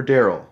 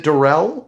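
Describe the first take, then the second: First: "Daryl" said DARE-ul; name stressed on first syllable. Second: "Darrell" said duh-RELL; name stressed on second syllable. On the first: Podcaster unsure of a guest's name, saying "Daryl" as DARE-ul. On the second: Podcaster unsure of a guest's name, saying "Darrell" as duh-RELL. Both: Shown as a demonstration. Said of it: "I'm not sure".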